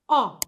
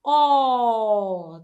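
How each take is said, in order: First: The vowel is unstressed and kept short. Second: The vowel is stressed and drawn out long. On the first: The speaker calls it right. "you do not place stress on the sound" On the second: The speaker calls it wrong. "That is totally wrong"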